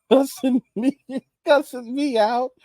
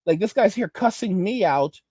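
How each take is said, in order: First: Laughs through the words, higher and slower; amused incredulous repeat; laughing disbelief. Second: Said in the usual way. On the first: Real, not acted. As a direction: chuckle it out in disbelief. Laughing disbelief at being cussed out.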